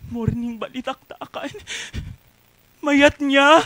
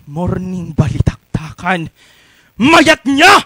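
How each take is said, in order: First: It is said in a pleading way. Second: It is said in an angry way.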